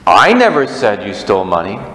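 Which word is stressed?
I. The stress is on "I".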